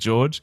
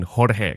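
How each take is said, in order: First: The name is said with English sounds. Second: The name is said with Spanish sounds. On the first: The speaker calls it wrong. "sees your name and says George" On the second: The speaker calls it right. "it's the Mexican Spanish enunciation"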